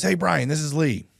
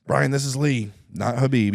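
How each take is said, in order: First: High, slow put-on voice of a caller; a first clumsy try at Lee's voice, pitched up and drawn out; Lee impression. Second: A raised, louder retry of the caller's voice; second Lee impression. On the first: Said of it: "not the best Lee impression". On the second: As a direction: try his voice again, a bit higher and louder. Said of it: "I don't know how to do the impression".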